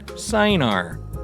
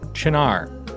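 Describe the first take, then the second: First: The word is read out as it is spelled. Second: The word is given its Italian pronunciation. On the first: The speaker calls it wrong. "as I pronounced it when I first saw it" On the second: The speaker calls it right. "a really cool liqueur called Cynar"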